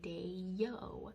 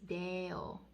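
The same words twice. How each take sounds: First: The first vowel glides into a Y sound. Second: The first vowel stays pure without a glide. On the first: The speaker calls it wrong. "in English we have this funny little habit of adding a Y sound" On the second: The speaker calls it right. "In Latin, it's deo"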